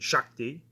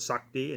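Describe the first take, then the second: First: The word begins with a sh sound. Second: The word begins with a plain s sound. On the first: "Sakti and Shakti" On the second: "Sakti and Shakti"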